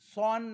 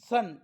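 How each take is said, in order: First: The vowel is an open 'aw' sound. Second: The vowel is a short 'uh' sound. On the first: The speaker calls it wrong. "सॉन नाही" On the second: The speaker calls it right.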